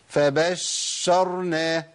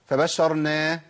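First: The sh sound is held far too long. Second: The sh sound is lightened and cut short. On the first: "لا ده كتير قوي كده" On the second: "اخفف الشين"

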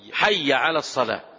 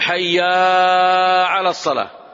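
First: The vowel after the first word is kept short. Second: The vowel after the first word is drawn out long. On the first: The speaker calls it right. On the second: The speaker calls it wrong.

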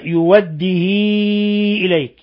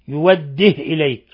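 First: The vowel after the h is greatly lengthened. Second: The h has no vowel after it. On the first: "بحذف الهمزة وإشباع الهاء، يعني صلة الهاء صلة كبرى" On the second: "بإسكان الهاء وحذف الهمزة"

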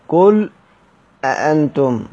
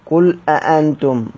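First: A brief stop follows the word 'qul'. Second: The words run on with no stop. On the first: "وبتحقيقهما مع السكت" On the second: "وبعدم السكت أيضا مع تحقيقهما"

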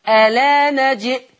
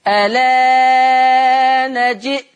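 First: The long vowel is held briefly. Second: The long vowel is held moderately long. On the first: "القصر" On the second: "التوسط"

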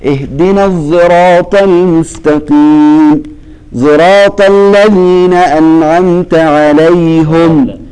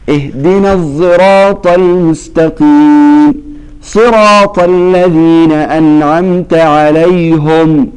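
First: Both 'sirat' words have a z-blended s-sound. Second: Only the first 'sirat' has a z-blended s-sound. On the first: This follows one transmitted reading of the text. "هذا خلف. خلف يشم الموضعان الأول والثاني" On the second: This follows another transmitted reading of the text. "هذا خلاد انفرد عن خلف"

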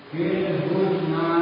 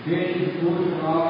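Both takes have the same delivery.

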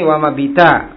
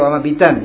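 First: The last word ends in a vowel without n. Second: The last word ends with an n sound. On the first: It is read on as if pausing at the word. "diwasalkan tapi niatnya waqaf" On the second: This is the original form of the word. "artinya asalnya wama bitan"

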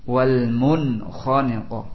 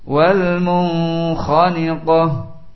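First: The n is pronounced clearly without nasal hiding. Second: The n is hidden with a lingering nasal sound. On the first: The speaker calls it right. "dibaca dengan jelas" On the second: The speaker calls it wrong. "ada yang baca dengan qiraah ikhfa"

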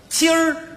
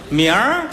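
First: The word is pronounced clearly and normally. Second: The word is slurred like a thick tongue. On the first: "咱们常说的今儿" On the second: "大舌头说不上来，他要一说"

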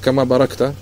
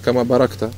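No difference in how they are said.

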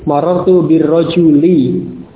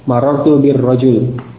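First: The last word ends on a short i vowel. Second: The last word ends on a bare consonant. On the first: The word carries its grammatical case ending. "kasrah, tidak tanwin" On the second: The reader stops at the end of the phrase. "Ini ketika di waqaf, menjadi sukun"

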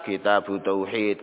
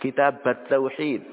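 First: The first word ends in an u vowel. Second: The first word ends in an a vowel. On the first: "dibaca dengan dhammah" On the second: "Boleh juga dibaca fathah"

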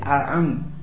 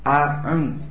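The two takes are said the same way.

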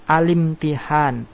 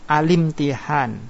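No difference in how they are said.

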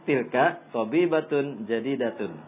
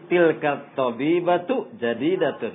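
First: The middle word ends with an n sound. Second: The middle word ends without an n sound. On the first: That is a new woman doctor. "ini dibacanya tilka tabibatun jadidatun" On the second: That woman doctor is new. "itu kalimatnya jadi tilka tabibatu jadidatun"

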